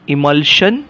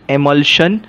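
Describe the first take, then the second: First: The first vowel is a short 'ih' sound. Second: The first vowel is an 'eh' sound. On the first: "तुम्ही समजा इमल्शन म्हटलं तरी चालेल" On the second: "एमल्शन म्हटलं तरी चालेल"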